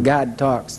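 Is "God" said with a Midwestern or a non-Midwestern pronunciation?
Midwestern. "God" has a Midwestern pronunciation. "I'm from the Midwest"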